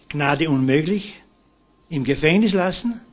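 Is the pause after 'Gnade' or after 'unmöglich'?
after unmöglich. The pause comes after 'unmöglich'. Pardon is refused and the prisoner stays jailed. "so wie vorher"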